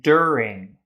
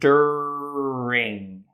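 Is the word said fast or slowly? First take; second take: fast; slowly. First: The word is said at a quicker pace. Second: The word is said slowly and drawn out. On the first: "say it a bit faster" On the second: "You can start it slow"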